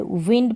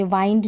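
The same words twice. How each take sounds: First: "विंड" with a short i; correct short vowel. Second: "वाइंड" with an eye vowel; wrong long vowel. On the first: Teacher giving beginners the right reading, "विंड" with short i. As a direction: say "विंड" like wind that blows. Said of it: "विंड पढ़ेंगे". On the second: Teacher warning beginners off a wrong reading, "वाइंड" with eye vowel. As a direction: say "वाइंड" to rhyme with find. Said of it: "वाइंड नहीं पढ़ेंगे इसको". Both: Shown as a demonstration.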